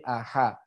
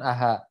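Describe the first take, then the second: First: The h sound is deep in the throat. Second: The h sound is light and breathy. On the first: The speaker calls it right. "Penyebutannya sesuai dengan huruf H" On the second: The speaker calls it wrong. "jangan aha"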